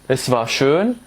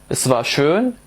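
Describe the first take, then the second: No difference in how they are said.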